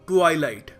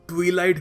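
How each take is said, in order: First: The first syllable has a long 'eye' sound. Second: The first syllable has a short 'i' sound. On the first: The speaker calls it right. "सही pronunciation है ट्वाइलाइट" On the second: The speaker calls it wrong. "कुछ लोग ट्विलाइट भी बोलते हैं, जो गलत है"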